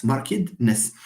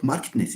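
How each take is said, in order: First: Put-on markedness said as MAR-kid-ness, in three syllables; correct three-syllable version. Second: Markedness said as markt-ness, in two syllables; wrong two-syllable version. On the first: Lecturer correcting a term, markedness with a separate middle syllable. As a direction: sound out the -ed in markedness as its own syllable. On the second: Lecturer showing the mistake, markedness without the middle syllable. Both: Shown as a demonstration. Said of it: "it's not markedness".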